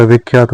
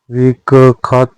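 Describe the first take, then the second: First: विख्यात with joined khy; correct cluster. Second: विख्यात broken as "vik-khaat"; wrong cluster. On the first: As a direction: say विख्यात as "vikhyaat". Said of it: "होता है". (विख्यात में शुद्ध ख्य) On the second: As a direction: drop the y from विख्यात. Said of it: "नहीं होता". (विख्यात का टूटा उच्चारण) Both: Shown as a demonstration.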